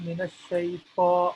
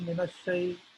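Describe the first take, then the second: First: The T is a deep, heavy T sound. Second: The T is a plain, light T sound. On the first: The speaker calls it right. "pronouncing the letter T here with more of a different type of deeper sound" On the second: The speaker calls it wrong. "I'm not saying"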